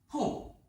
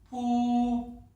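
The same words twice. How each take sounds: First: The pitch falls sharply from high. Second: The pitch stays high and level. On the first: "사성" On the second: "먼저 일성부터 들려드리겠습니다"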